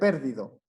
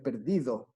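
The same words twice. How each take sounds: First: The stress is on the first syllable. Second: The stress is on the middle syllable. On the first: The speaker calls it wrong. "si fuera en per, por ejemplo, sería perdido" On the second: The speaker calls it right. "Pero es perdido. ... la sílaba tónica está en di"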